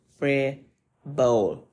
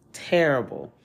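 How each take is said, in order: First: TERRIBLE broken slowly into separate syllables; emphatic. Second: "Terrible" said as one firm word, falling; emphatic repeat. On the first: Host condemning the shooting to listeners, "terrible" drawn out syllable by syllable. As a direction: stretch "terrible" out, pausing between syllables. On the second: Host repeating the verdict to listeners, "Terrible" in one falling piece. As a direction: land "Terrible" whole, with a falling finish. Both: Real, not acted.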